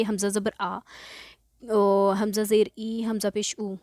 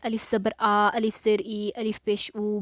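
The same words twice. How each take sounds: First: "हमज़ा ज़बर आ" with हमज़ा named at the start of each line; today's hamza reading. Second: "अलिफ ज़बर आ" with अलिफ named at the start of each line; the way some read it. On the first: Teacher gives students the hamza reading they will learn today. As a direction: say हमज़ा in place of अलिफ each time. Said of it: "लेकिन आज हम पढ़ेंगे". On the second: Teacher shows students the common alif reading, plainly. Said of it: "बाज़ लोग ऐसे पढ़ते हैं". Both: Shown as a demonstration.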